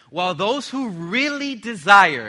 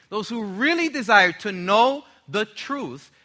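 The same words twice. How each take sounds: First: Really drawn out and leaned on; slow, heavy weight on really; really stretched slowly with force; stress on really. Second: Really pressed again, slow and louder; really given slow emphasis; stress on really. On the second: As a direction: lean hard on really, slowly. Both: Shown as a demonstration. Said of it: "emphasis on the word really".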